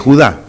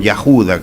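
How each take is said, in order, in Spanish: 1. Se pronuncia en dos sílabas: Hu-dá. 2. Se pronuncia en tres sílabas: Ya-hu-da.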